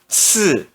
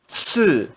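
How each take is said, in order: The two takes are said the same way.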